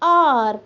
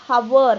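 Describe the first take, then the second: First: The word begins directly with a vowel sound. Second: The word begins with an audible h sound. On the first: The speaker calls it right. "H O U R spells like R" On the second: The speaker calls it wrong. "it is not pronounced as hour. Ha ha pronunciation नहीं"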